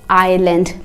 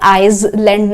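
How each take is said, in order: First: No s sound is pronounced before the l. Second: An s sound is pronounced before the l. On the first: The speaker calls it right. "एस silent है, आइलैंड pronounce करते हैं" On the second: The speaker calls it wrong. "आप इसे आइसलैंड नहीं"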